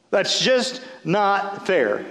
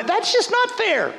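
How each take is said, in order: First: Slow, drawn-out repeat of the complaint. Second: High whiny mock protest; whiny complaint. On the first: Retold or imitated. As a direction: stretch every word out. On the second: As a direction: whine it like a sulking child. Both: Mocking Martha's complaint.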